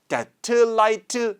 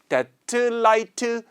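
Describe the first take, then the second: First: The words are separated with a break between them. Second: The same.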